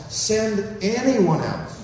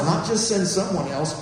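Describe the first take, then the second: First: Slow, leaning hard on anyone; stress on anyone. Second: Said in the usual way. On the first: Shown as a demonstration. Preacher stressing anyone to the congregation. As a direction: anyone drawn out and pressed.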